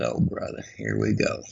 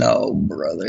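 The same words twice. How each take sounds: First: Voiceless exasperated mutter; whispered sigh of exasperation; whispered under breath. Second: Lower, weary resigned groan; low groan of dread. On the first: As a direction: breathe it out so she can't hear. Exasperated husband muttering to himself. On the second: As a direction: sink into resignation. Husband dreading the outcome. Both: Retold or imitated.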